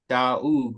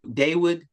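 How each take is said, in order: First: No W sound is heard in the middle. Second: A W sound is heard in the middle. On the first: The speaker calls it right. "the W is silent" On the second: The speaker calls it wrong. "some people say Day Dawood"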